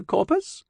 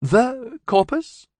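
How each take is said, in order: First: High, questioning alien; high, unsure alien question; lightly voiced alien. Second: High, slow, hushed alien awe; high alien voice, slowly awed. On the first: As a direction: lift it up high, unsure of the word. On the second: Acted. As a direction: breathe the name out slowly in wonder. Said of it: "Hailey's tone was slightly awed".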